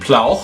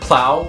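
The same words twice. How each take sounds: First: It ends in a throaty ch sound. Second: It ends in a plain vowel. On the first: This is the older pronunciation. "was probably pronounced something like plow" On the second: This is the modern pronunciation. "the word plow"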